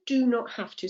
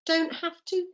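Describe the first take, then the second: First: "do not" as two separate words; extended form. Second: "don't" as one word before "have to"; higher "don't have to", DON'T contracted; contracted form. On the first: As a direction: spell out "do not" in full before "have to". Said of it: "what the extended form is". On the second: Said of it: "contracted form is". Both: Shown as a demonstration.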